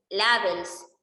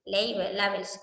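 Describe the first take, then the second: First: "labels" read the Spanish way as la-bels, with an open a; Spanish-style reading. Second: "Label, labels" said in English as lei-bel, lei-bels; English pronunciation. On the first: Teacher naming an R argument to students, reading it Spanish-style. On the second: Teacher unsure of the English word, trying the English way lei-bels. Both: Shown as a demonstration. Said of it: "creo que se pronuncia así".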